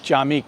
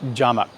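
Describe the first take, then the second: First: The second syllable has an 'i' vowel. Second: The second syllable has an 'a' vowel. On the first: The speaker calls it right. "so Masjid Jamik" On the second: The speaker calls it wrong. "not Jamak"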